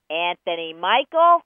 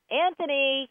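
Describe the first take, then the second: First: Much louder, slower scolding call; in-trouble call. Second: High, raised parent's call; dinner-time call. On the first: Mama calls out a child in trouble, loud scolding. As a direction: hit both names hard, like an angry parent. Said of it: "you are in trouble". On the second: Parent calls the child to dinner, high calling voice. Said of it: "that's probably dinner time". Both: Acted.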